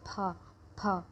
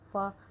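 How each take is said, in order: First: It is a strong burst with lips closed. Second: It sounds like an English f. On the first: The speaker calls it right. "थोड़े स्ट्रॉन्ग करके बोलना, हमारे होठ आपस में दोनों ऐसे बंद हो जाएंगे" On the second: The speaker calls it wrong. "जैसे एफ वाला फ निकलता है ना हमारे मुंह से, ये नहीं बोलना, ये गलत हो जाएगा"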